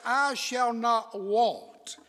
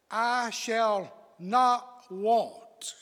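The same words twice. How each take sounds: First: Slow, with "I" pushed up front; "I" stressed, rest slow. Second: Slow, with "not" held and leaned on; slow and deliberate, weight on "not"; stress on not. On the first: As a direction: lean on "I" in "I shall not want". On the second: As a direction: draw out "I shall not want", hitting "not". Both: Shown as a demonstration. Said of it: "preach a little bit tonight using emphasis".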